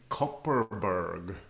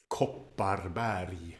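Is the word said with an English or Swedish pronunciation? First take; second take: English; Swedish. First: It is said with an English pronunciation. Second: It is said with a Swedish pronunciation. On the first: "I think here we say Kopparberg" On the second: "But it's, it's Kopparberg"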